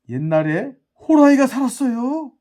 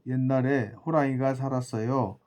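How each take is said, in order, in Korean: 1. 생동감 있고 다양한 억양으로 말해요. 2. 밋밋하고 단조로운 목소리로 말해요. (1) "이런 어떤 억양의 표현이" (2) "말 억양이 없잖아요"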